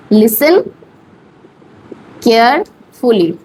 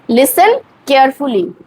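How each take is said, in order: First: listen and carefully said slowly with a long pause between; teacher spacing out each word for the class. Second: Said in the usual way. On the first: Shown as a demonstration. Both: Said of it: "আস্তে আস্তে বলুন".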